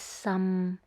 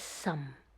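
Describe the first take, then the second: First: It is said in the sixth tone. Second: It is said in the fourth tone. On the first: It means very. "The sixth tone is some" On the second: It is a surname. "The fourth tone is some"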